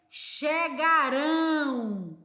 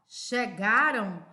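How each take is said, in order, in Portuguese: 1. A sílaba final é dita com mais força. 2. A sílaba final é dita suave e fraca. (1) "pronunciamos com mais força" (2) "ele é mais suave"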